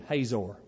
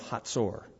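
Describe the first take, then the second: First: The stress falls on the first syllable. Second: The stress falls on the last syllable. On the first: This is the usual American pronunciation. "But we're Americans, so let's just say he reigned in Hazor" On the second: This is the original Hebrew pronunciation. "The Hebrew pronunciation is usually different than English, and the syllable is always on the last"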